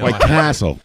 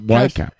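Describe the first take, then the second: First: The stress falls on the word Castle. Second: The stress falls on the word White. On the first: The speaker calls it right. "Please put the emphasis on Castle" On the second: The speaker calls it wrong.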